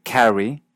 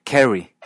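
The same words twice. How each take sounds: First: First "Carrie" with an open a, as in "cat"; unmerged vowel. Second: "Carrie" said like Kerry; Canadian merger. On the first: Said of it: "El nombre Carrie". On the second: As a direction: turn the a of "Carrie" into short e. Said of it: "se dice Carrie". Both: Shown as a demonstration.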